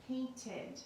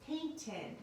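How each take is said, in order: First: "Painted" repeated, ending as id; ending said as id again. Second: "Painted" ending clearly as id. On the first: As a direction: say "Painted" once more with an id ending. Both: Shown as a demonstration. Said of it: "it sounds like id".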